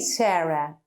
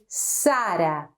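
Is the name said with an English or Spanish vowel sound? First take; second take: English; Spanish. First: The name is said with English vowel sounds. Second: The name is said with open Spanish a vowels. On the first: The speaker calls it wrong. "we don't say Sarah in Spanish" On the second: The speaker calls it right. "we say Sara"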